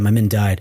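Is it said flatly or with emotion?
flat. It is said calmly and flatly, without emotion.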